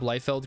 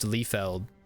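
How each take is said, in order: First: The name is pronounced the American way. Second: The name is pronounced the German way.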